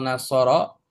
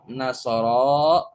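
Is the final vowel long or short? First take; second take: short; long. First: The final vowel is short. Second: The final vowel is drawn out long. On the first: One person has helped. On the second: Two people have helped.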